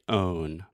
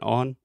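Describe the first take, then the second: First: The vowel is long and drawn out. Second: The vowel is short and clipped. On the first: The speaker calls it right. "make the sound a little bit longer" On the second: The speaker calls it wrong. "Alexia's saying on"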